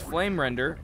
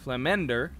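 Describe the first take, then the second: First: An R sound is heard in the middle. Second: No R sound is heard in the middle. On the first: The speaker calls it wrong. "There's no R there" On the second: The speaker calls it right. "There's no R there"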